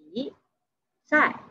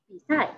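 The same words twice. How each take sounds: First: "Bisai" slowly, a long pause between "Bi" and "sai"; syllable by syllable. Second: Said in the usual way. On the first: Shown as a demonstration. Teacher breaking down "Bisai" for learners, syllable by syllable. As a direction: split "Bisai" into two separate syllables.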